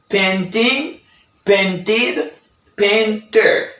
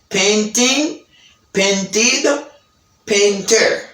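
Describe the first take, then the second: Both takes have the same delivery.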